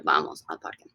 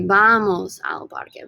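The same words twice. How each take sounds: First: Hushed, voiceless echo of the phrase; whispered repeat. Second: Said in the usual way. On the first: Shown as a demonstration. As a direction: repeat it softly under your breath. Teacher repeats answer under breath.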